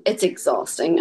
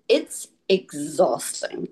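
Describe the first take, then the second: First: Said in the usual way. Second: Slow, weary emphasis. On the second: Real, not acted.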